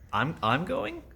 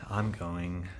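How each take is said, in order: First: "going?" rising high as a question; questioning read. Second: Said in the usual way. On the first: Shown as a demonstration. In the acting class demo, a puzzled question. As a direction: ask "I'm going?" with a big upward lift on "going". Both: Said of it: "you split it up".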